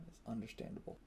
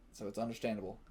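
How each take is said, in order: First: Whispered aside. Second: Said in the usual way. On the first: Real, not acted. Repeats line, then whispers it.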